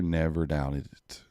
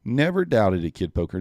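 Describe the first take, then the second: First: Slow and low, savouring each word; slow smug repeat. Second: Excited cheer. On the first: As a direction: lean back and drawl it, satisfied. Repeating the cheer, drawn out. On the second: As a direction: cheer it out like you knew all along. Cheering a trader's winning trade. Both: Real, not acted.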